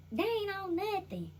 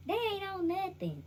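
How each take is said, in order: First: Put-on slow, high drunk drawl; mock tipsy slow line. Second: Said in the usual way. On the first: Shown as a demonstration. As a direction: say it like a tipsy uncle.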